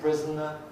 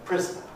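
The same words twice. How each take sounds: First: The n itself forms a syllable. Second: The n is plain, not a syllable. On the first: "we get syllabic N" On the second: "we get non-syllabic N"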